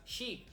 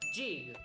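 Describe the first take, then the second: First: It is said with an Argentine Spanish pronunciation. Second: It is said with an English-style pronunciation. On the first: "mi pronunciación argentina" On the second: "para que no se quejen"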